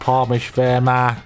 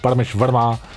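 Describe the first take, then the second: First: It is said in a put-on voice. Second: It is said in his own voice.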